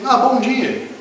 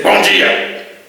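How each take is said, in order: First: High, friendly lilting greeting; pleasant, innocent morning hello; easygoing good morning. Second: Loud, rough, resentful greeting; acted grumpy morning hello; irritated good morning. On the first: Acted. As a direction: greet them without a care. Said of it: "A pessoa mó de boa". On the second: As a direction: throw the greeting back with bad feeling. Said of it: "já vem aquela emoção ruim".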